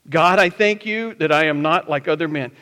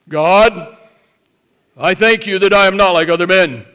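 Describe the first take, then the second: First: It is read in a plain, neutral tone. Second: It is said in the Pharisee's proud, smug tone.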